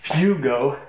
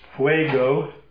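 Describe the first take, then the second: First: It does not sound like Spanish fuego. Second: It sounds like the Spanish word fuego. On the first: The speaker calls it right. "If it were Spanish, it'd be fuego" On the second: The speaker calls it wrong. "No, I'd say it wrong"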